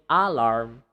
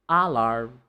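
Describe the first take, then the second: The two takes are said the same way.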